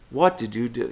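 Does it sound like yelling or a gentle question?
question. It sounds like a softer, puzzled question.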